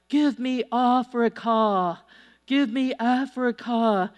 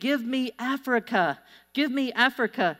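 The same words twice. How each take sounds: First: It is said in a German accent. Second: It is said in a plain accent.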